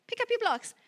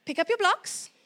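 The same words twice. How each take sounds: First: High, chirpy mom giving an order; a cheerful mother telling a toddler to tidy up; mock mom command. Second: Firm, level order, a little higher; mean every word; assertive command. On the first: Mom to child, asking for the blocks, lightly voiced. Plain contrast take. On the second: Shown as a demonstration. Mom showing the assertive style, firm steady command. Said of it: "Then you get assertive".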